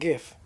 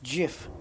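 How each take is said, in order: First: The word starts with a hard G sound. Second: The word starts with a soft J sound. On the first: The speaker calls it wrong. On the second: The speaker calls it right.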